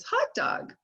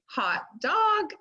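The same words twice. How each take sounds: First: Put-on "Hot dog" blended in a high breathy child voice; imitating a toddler. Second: "Hot dog" said as two separated syllables, higher; syllables split apart. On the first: Grandson blends "Hot dog" back, high toddler voice. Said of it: "and he says". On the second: Shown as a demonstration. Grandmother modelling syllables for blending, split apart. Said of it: "Or I say".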